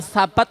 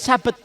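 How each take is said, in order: First: The word begins with a 'th' sound. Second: The word begins with an 's' sound. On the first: It means stand firm. The speaker calls it right. "kalau sabat itu kan artinya tetap tetaplah" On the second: It means Saturday. The speaker calls it wrong. "Sabet pakai sin bukan pakai ta"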